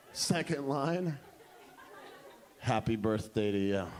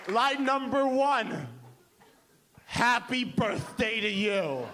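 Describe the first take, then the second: First: Very low, understated announcement; dramatic reveal. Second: Slow, drawn-out proud announcement; grand pitch. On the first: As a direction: drop deep to unveil the line. Same line pitched second time. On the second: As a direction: present it slowly like a masterpiece. Arrogant songwriter pitches her lines. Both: Retold or imitated.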